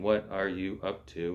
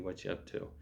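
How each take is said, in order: First: The word 'are' is clearly pronounced. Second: The word 'are' is dropped entirely. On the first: This is the formal, textbook form. "instead of saying" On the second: This is how people casually say it. "we might say"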